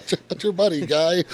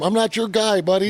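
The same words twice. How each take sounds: First: High, swapped mock Canadian retort. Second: High, loud mock Canadian retort. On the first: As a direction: flip the words and yap them high. Swapped version of the Canadian line. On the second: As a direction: yap it high like a cranky Canadian. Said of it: "You should have looked at him".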